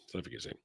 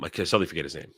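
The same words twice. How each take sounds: First: A whispered aside of annoyance at himself. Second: Said in the usual way. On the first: Real, not acted. Annoyed at forgetting a streamer's name, whispering to himself. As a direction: whisper it to yourself.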